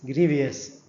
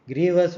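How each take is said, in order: First: "grievous" wrongly said as GREE-vee-us; mispronunciation. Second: "Grievous" in two syllables, GREE-vus; proper pronunciation. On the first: Lecturer showing students' common mistake, mispronouncing "grievous" as GREE-vee-us. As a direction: slip an extra "ee" into "grievous" before "-us". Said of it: "it should be pronounced as grievous". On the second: Lecturer showing students the right word, proper pronunciation of "Grievous" as GREE-vus. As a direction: say "Grievous" with no extra "i" before "-ous". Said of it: "that is the proper pronunciation".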